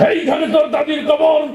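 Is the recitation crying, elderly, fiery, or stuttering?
fiery. It is recited in a loud, fiery speech style. A politician used to fiery speeches is reciting. "রাজনীতির মঞ্চে সবসময় গরম বক্তব্য দিয়ে অভ্যাস"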